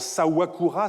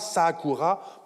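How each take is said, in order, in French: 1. Le nom a un son 'w' au milieu. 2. Le nom n'a pas de consonne au milieu, seulement un 'a' long. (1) "évoluant en" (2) "prononciation innovatrice"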